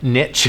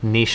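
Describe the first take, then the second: First: The word is pronounced the American way. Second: The word is pronounced the French way. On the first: "niche is the American way of saying it" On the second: "Niche is French"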